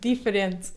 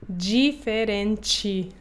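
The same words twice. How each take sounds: First: It is said with a European Portuguese accent. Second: It is said with a Brazilian Portuguese accent.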